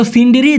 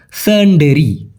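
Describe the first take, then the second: First: সিন্ডিরি with "i" vowels, "sin-di-ri"; সিন্ডিরি with an "ee" sound in each syllable; mistaken pronunciation. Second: সেন্ডেরি slowly, as "sen-de-ri"; slow, careful সেন্ডেরি, no "sin"; corrected pronunciation. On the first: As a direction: read সিন্ডিরি as the asker spelt it, "sindiri". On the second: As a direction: model সেন্ডেরি with "e" in the first two syllables. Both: Shown as a demonstration. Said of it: "সঠিক উচ্চারণটা হবে".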